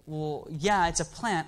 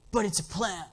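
First: Said in the usual way. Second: Imitating the kid. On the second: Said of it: "he actually talked like this".

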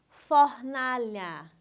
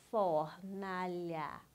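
First: Said in the usual way. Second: "Fornalha" slow and evenly drawn out in three syllables. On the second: Shown as a demonstration. Teacher helping pupil count syllables, syllable by syllable. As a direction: sound out "Fornalha" slowly, letting each syllable stretch. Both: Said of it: "separe as sílabas".

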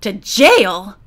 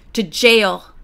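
First: Louder, shocked question; mild shriek. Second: Short, firm falling answer; terse. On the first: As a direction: echo it back in alarm. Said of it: "the prisoner shrieked". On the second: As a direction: state it tersely, no discussion. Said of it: "told him tersely". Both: A narrator's reading.

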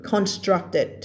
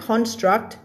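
First: Constructed in three syllables; extra -ed syllable. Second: Construct in two syllables; base form without -ed. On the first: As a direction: add a clear "ted" syllable to end constructed. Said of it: "มันจะเพิ่มมาอีกหนึ่งพยางค์". (อ่าน constructed เพิ่มพยางค์ ted ท้ายคำ) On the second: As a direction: stop construct on its final T. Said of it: "ถ้าเอา ed ออกก็จะอ่านว่า construct". (อ่าน construct โดยไม่เติมพยางค์ ed) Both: Shown as a demonstration.

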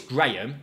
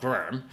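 First: Graham said cleanly as one syllable, Gray-um run together; correct pronunciation. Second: Graham mimicked as the NPC's clipped, mangled version; mimicked mispronunciation. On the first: Gamer correcting how the NPC says Graham, firm. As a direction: say Graham the proper way, clear and firm. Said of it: "learn to say their name". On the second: Gamer mocking the NPC's take on Graham. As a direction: imitate the wrong Graham from the game. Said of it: "not Graham". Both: Shown as a demonstration.

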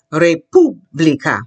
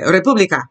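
First: "República" slowly with a rolled R; slow modelling. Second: Said in the usual way. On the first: Shown as a demonstration. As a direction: break "República" into re-POO-blee-ka, stressing POO. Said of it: "I'll take it slowly".

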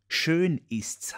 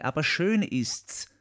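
First: Higher, schön stressed, lightly voiced; repeating her words. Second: Higher and slow, lightly voiced; quoted Marie, first take. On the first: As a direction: echo schön with a firmer lift. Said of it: "hat sie gesagt". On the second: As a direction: draw out schön gently, a step above his own voice. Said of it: "Sie hat gesagt".

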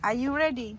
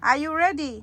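First: Said in the usual way. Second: Higher, louder sing-song call; cheerful are you ready call. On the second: Real, not acted. Calling the baby again, livelier.

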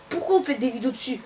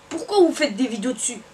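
Both takes have the same delivery.

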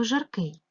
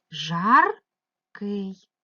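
First: Said in the usual way. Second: "Жаркий" as two separate syllables, the first louder and rising; split into syllables. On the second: Shown as a demonstration. Teacher showing pupils how a word divides, syllable by syllable. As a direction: break "Жаркий" in two with a clear gap. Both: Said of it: "поділити ці слова на склади".

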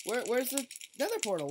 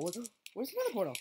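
First: Said in the usual way. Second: Fast hurried question; rushed. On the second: Real, not acted. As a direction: rattle it off quickly. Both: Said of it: "repeats the question faster".

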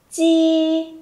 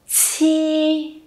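First: "chi" held long and high with no puff of air; unaspirated initial. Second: "Chi" with a strong puff of air, held high and level; aspirated initial. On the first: Teacher models the first sound for learners, unaspirated "chi". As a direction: say "chi" as in Vietnamese "chi tiền", drawn out on a level tone. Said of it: "nó hơi giống như là chi tiền". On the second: Teacher shows learners the second sound, aspirated "Chi". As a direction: burst the air out on "Chi", then sustain it. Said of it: "chúng mình phải bật hơi đúng không ạ". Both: Shown as a demonstration.

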